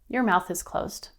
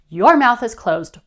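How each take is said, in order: First: It is said in a calm, matter-of-fact tone. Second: It is said in an angry, heated tone. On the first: The expectation is stated firmly without emotion. The speaker calls it right. "no-nonsense and non-emotional manner" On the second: The speaker is upset and confrontational. The speaker calls it wrong. "Instead of angrily"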